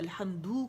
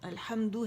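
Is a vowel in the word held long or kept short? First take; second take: long; short. First: A vowel is stretched out long. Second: The vowels are kept short without lengthening. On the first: The speaker calls it wrong. "मत बढ़ा देते हैं" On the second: The speaker calls it right. "अल्हम्दु है"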